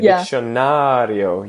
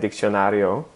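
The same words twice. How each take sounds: First: The word has a Portuguese rhythm and emphasis. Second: The word has an even Spanish rhythm. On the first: The speaker calls it right. "You would say diccionario. You have to do this da-da-da" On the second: The speaker calls it wrong. "you would don't say, like in Spanish"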